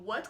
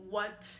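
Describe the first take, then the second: First: The word is said with Mandarin's second tone. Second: The word is said on a flat, level pitch. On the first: It expresses surprise or shock. "The second tone" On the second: It is a genuine question. "The first flat syllable kind of implies a genuine question"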